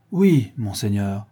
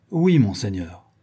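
First: Slow, naively earnest yes. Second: Slightly pompous soldier's yes; self-important. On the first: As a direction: draw out the answer with simple candour. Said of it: "répondit naïvement le cosaque". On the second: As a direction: answer with a touch of importance. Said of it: "répondit d'un ton d'importance". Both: A narrator's reading.

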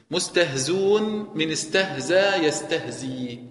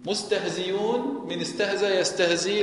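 First: مستهزون said without the ya sound, slowly; reading without ya. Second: مستهزيون with the ya clearly kept, rising at the end; reading with ya. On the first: Teacher reads the variant مستهزون to students, slow and deliberate. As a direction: drop the ya in مستهزون, read it slowly. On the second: Teacher reads the ya variant مستهزيون to students, ya clearly pronounced. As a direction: keep the ya audible in مستهزيون. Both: Shown as a demonstration. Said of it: "لكن بإثبات الياء".

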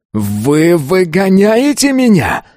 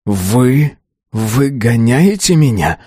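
First: High, drawn-out outraged yell. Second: Slow, hurt challenge; quick retort. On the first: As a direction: cry it out in disbelief, voice shooting up. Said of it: "заорал он". (крик, высоко и протяжно) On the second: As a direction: throw the question back, drawing it out. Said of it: "тут же парировал парень". (возражая, протяжно) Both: A narrator's reading.

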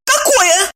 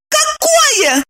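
First: «Какое?» asked high and ringing. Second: «Какое?» shouted much higher with a falling end; mock shout. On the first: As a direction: ask «Какое?» in a high tense ring. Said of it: "звенящим голосом поинтересовалась". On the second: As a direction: cry out «Какое?» high, falling. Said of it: "уже закричала она". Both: A narrator's reading.

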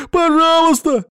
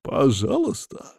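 First: Very high, loud begging scream; desperate pleading shout. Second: Slow, cold rising sneer on пожалуйста; angry mocking echo. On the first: Captive in the pit screaming please at Mamuka. Captive begs for his life. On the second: Boss coldly mocking the captive's plea. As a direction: throw the word back at him with menace. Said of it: "зло переспрашивает он". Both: A narrator's reading.

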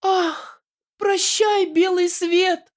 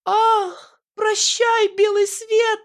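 First: Very high wailing farewell; very high hammed-up dying heroine; melodramatic farewell. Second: Very high melodramatic wail; very high hammed-up dying heroine; desperate moan. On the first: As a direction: wail goodbye to the world, high. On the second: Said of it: "отчаянно простонала Аннушка".

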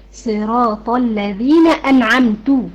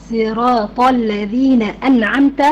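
First: أنعمت recited slowly with damma on the final ت, anʕamtu; slow recitation of أنعمت ending in u, showing the error; wrong damma reading. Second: أنعمت recited slowly with fatha on the final ت, anʕamta; slow Quranic recitation of أنعمت ending in an open a; correct fatha recitation. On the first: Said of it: "القارئ قرأها بالضم". (تلاوة أنعمتُ بضم التاء خطأً ببطء) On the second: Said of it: "بالفتح". (تلاوة أنعمتَ بفتح التاء ببطء) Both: Shown as a demonstration.

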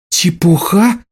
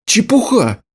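First: Чепуха? rising in furious disbelief; enraged. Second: Said in the usual way. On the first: A narrator's reading. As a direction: echo his word back, livid. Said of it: "рассвирепела она". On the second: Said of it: "Чепуха? рассвирепела она".

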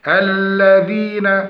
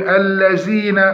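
First: "الذين" said slowly, focused on the doubled lam; lam demonstration. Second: "الذين" with z in place of dh; dhal turned to zay. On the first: Teacher illustrates lam timing, slow الذين. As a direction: dwell carefully on the l of "الذين". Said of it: "الزيادة في مط اللام". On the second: Teacher imitates a wrong reader, z sound in الذين. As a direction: buzz "الذين" as "allazeena". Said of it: "وقلب الذال لزاي". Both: Shown as a demonstration.

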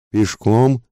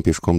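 First: High, rising shocked question; возглас изумления. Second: Said in the usual way. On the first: A narrator's reading. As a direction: echo it as a startled higher cry, not much louder. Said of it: "закричали хором все пассажиры". (изумлённый вскрик с подъёмом тона)

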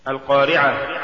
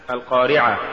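First: Said in the usual way. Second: القارعة with final ه turned into alif; faulty reading of القارعة, dropping the final h; mispronounced ه. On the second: Shown as a demonstration. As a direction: say القارعة ending in open "aa", no h. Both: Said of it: "تقرأ لحنا".

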